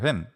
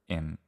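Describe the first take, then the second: First: The word begins with an audible H sound. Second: The word begins directly with the vowel. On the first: "I say he, her, him in those positions" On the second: "I don't say e, er, im"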